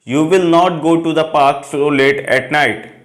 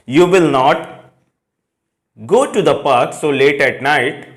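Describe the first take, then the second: First: The sentence flows without a pause after 'not'. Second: There is a pause after 'not'. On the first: The speaker calls it right. "पूरा sentence एक flow में बोला" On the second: The speaker calls it wrong. "यहां पे not के बाद comma नहीं लगना चाहिए, यहां पॉज नहीं होगा।"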